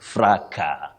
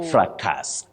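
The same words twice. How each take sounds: First: The final s is silent. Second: The final s is pronounced. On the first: The speaker calls it right. "the S is not pronounced when you deal with a singular form" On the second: The speaker calls it wrong. "not fracas, as we commonly say"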